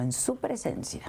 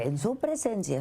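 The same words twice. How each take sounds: First: "su presencia" lifted higher, stressing "su". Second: Said in the usual way. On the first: Real, not acted. Interviewer presses guest on an accusation, stressing "su". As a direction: repeat it pointedly, pitch raised on "su presencia".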